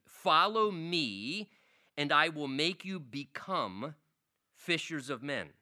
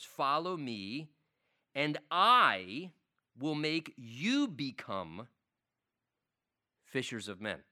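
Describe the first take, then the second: First: The sentence is read plainly, without added emphasis. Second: The sentence is read with strong added emphasis.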